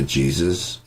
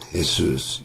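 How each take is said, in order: First: The name is said with an English pronunciation. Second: The name is said with a Spanish pronunciation. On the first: "what it is now"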